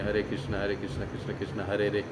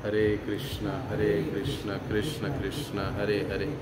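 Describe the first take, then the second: First: It is rushed, and the last word is clipped. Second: Each word is said fully and clearly. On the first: The speaker calls it wrong. "Fast करने की या speed बढ़ाने के चक्कर में" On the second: The speaker calls it right. "एक एक शब्द को हमको ध्यानपूर्वक सुनने की कोशिश करनी चाहिए"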